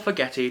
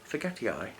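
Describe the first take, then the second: First: The name is said in a casual, simplified way. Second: The name is said in a careful, formal way. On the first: "I like forgetti, I think it sounds pretty" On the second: "depending on how, you know, committed you are to pronunciations"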